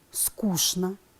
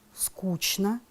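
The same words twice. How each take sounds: First: It is said with a 'sh' sound before 'n'. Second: It is said with a 'ch' sound before 'n'. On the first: The speaker calls it right. "правильное произношение этих слов такое" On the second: The speaker calls it wrong. "люди произносят с ЧН"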